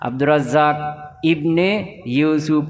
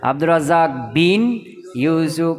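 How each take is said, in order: First: The middle word begins with an i vowel. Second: The middle word begins with a b consonant. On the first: The speaker calls it right. "এভাবে বলতে হবে" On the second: The speaker calls it wrong. "বিন বলে কোনো শব্দ নাই"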